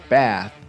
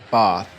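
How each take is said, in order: First: It is said with an American accent. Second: It is said with a British accent.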